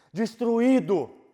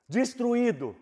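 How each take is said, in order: First: Destruído stretched very slowly and loud; slow, aching destruído; drawn-out word. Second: Said in the usual way. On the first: Acted. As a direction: drag out destruído syllable by syllable.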